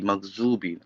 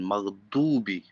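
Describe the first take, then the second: First: The middle consonant sounds like a Z. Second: The middle consonant sounds like a D. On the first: "maghzubi with the Z" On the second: "with the voice of D"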